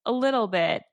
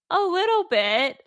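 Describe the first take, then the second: First: Slightly sheepish quoted admission. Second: High, louder mock-sheepish squeak; hammed-up repeat of a sheepish admission; exaggerated sheepish. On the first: Retold or imitated. Harry answering Ron about his pet rat, mildly sheepish. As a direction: imitate a sheepish little admission. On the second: Repeating Harry's answer for laughs, exaggeratedly sheepish. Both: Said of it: "looks all sheepish and goes".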